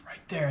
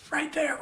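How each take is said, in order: First: Said in the usual way. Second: Laughing high. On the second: Real, not acted. Laughing at the tricky moment.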